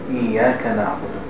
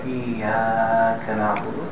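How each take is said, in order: First: The vowel in Iyaka is held for two beats. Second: The vowel in Iyaka is stretched out long. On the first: The speaker calls it right. "Two beats" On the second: The speaker calls it wrong. "We don't want to make an Iyaka na'budu because there's no hamza in the next word"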